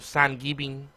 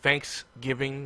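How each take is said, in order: First: It is said in a Spanish accent. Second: It is said in a plain English accent. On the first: "they go Thanksgiving" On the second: "Instead of saying Thanksgiving"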